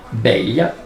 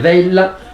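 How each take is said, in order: First: The word begins with a b sound. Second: The word begins with a v sound.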